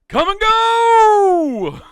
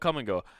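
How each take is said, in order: First: It is said in a silly, put-on voice. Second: It is said in a plain, ordinary voice.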